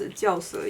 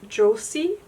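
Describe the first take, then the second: First: The name is given a Chinese pronunciation. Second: The name is given an English-style pronunciation. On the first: "it's pronounced Jiaose in um, Chinese" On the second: "I don't know how to pronounce this brand in English"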